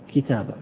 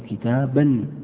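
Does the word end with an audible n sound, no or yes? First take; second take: no; yes. First: The word ends in a long vowel without n. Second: The word ends with an n sound before the next word. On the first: The speaker stops after this word. "عند الوقف أيضا لا تقف على التنوين" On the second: The speaker continues into the next word. "لكنك لو وصلت تقول"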